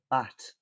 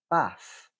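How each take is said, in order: First: It ends with a t sound. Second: It ends with an f sound. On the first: "or a t, a t sound" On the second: "you can replace it with a f"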